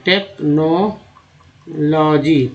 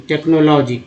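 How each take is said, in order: First: technology very slowly, as take-no-logy; syllable by syllable. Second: Said in the usual way. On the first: Shown as a demonstration. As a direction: stretch and separate each part of technology. Teacher splits word into parts. (Technology को बहुत धीरे, तोड़-तोड़कर)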